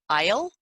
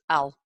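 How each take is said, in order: First: It has a full 'I' vowel, like 'aisle'. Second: It is shortened and sounds like 'all'. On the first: "a full aisle where you're actually pronouncing the whole whole I" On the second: "even shorter and more contracted, you'll hear I'll, which sounds like A L L"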